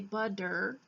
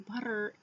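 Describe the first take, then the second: First: The middle consonant is a hard D sound. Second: The middle consonant is a soft, rolled tap. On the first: The speaker calls it wrong. "we don't say butter, B U D D E R" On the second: The speaker calls it right. "we roll the T off of the top of our the roof of our mouth"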